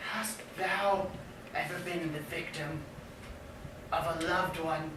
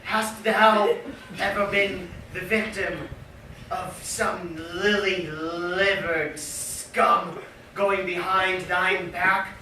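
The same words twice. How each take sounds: First: Hushed and low, much softer; quiet. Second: Projected. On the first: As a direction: drop the voice to a hush. Question repeated, first take hushed. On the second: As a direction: throw it out boldly. Question repeated, second take projected. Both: Acted.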